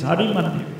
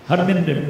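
First: The name is said fully in four syllables. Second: The name is squeezed into three syllables. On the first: The speaker calls it right. "but it's Hari Mandir" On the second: The speaker calls it wrong. "They can't pronounce it, they say Harminder"

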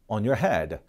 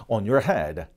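The two takes are said the same way.

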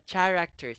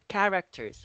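First: The word begins with a 'ch' sound. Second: The word begins with a 'k' sound. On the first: The speaker calls it wrong. "not characters" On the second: The speaker calls it right. "it's characters, okay? Silent H"

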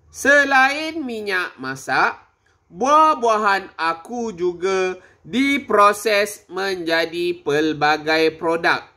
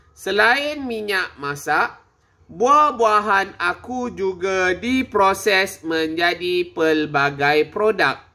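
No difference in how they are said.

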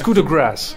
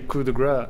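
First: The last word ends with an s sound. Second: The last word ends without an s sound. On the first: It means the mercy shot. The speaker calls it right. "It's coup de grâce" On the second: It means the fat shot. The speaker calls it wrong. "most commentators say coup de grâce, which means the fat shot in French"

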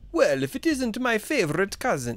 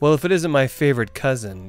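First: It is said in a put-on foreign accent. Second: It is said in the speaker's plain voice.

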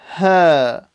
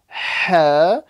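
First: The h sound is soft and light from the throat. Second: The h sound is harsh and strongly breathed. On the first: The speaker calls it right. "it has to be as soft as possible. So like this. Listen carefully" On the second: The speaker calls it wrong. "So don't say ha"

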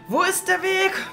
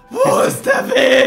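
First: It is said fairly plainly, without wailing. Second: It is cried out in a wailing, crazed way. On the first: The speaker calls it wrong. "dann hätte ich ein bisschen anders rufen müssen" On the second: The speaker calls it right. "So kann man ihn auch interpretieren"

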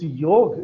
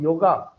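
First: The word ends on the consonant, no final vowel. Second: The word ends with an added final 'a' vowel. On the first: The speaker calls it right. "It's yog" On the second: The speaker calls it wrong. "it is not yoga"

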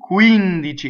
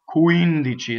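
First: The u sound is made high in the mouth. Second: The w-like sound is made low in the mouth. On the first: The speaker calls it right. "It's up here in the where the u is, higher in the palate" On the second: The speaker calls it wrong. "here's the American accent"

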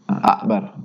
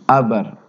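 First: The k sound is clearly pronounced. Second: The k sound is replaced by a glottal stop. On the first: The speaker calls it right. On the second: The speaker calls it wrong.

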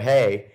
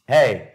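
First: It is said shyly and timidly. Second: It is said like a buddy greeting a bro.

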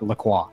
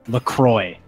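First: The name is said with a French pronunciation. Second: The name is said with an anglicized pronunciation. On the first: This is the original pronunciation of the word. "the actual pronunciation should be, like, La Croix" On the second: This is how the brand wants it said. "It's supposed to be pronounced La Croix"

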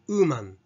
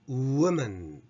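First: The first vowel is said with rounded lips. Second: The first vowel is lax with the mouth lightly open. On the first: The speaker calls it wrong. "woman ではなく" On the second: The speaker calls it right. "would であるのと同様"

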